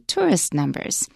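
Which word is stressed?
tourist. The stress falls on the first word. The speaker calls it right. "we say"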